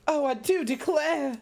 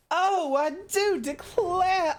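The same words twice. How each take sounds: First: High, slow Southern belle swoon; a genteel lady declaring herself overcome. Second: Very high, drawn-out, laughing sob of a Southern belle; hammed-up weepy Southern belle. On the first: Pretend. Streamer answers chat as a fainting Southern belle. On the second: Streamer overdoes the swooning belle for chat, laughing. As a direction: overplay the belle into a comic wail. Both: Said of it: "make you come down with the vapors".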